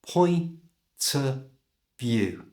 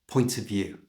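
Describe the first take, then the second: First: The phrase is said slowly, each part drawn out. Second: The phrase is said quickly, at normal speed. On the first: "So slowly it sounds like this" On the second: "And at normal speed"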